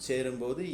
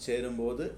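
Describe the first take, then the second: No difference in how they are said.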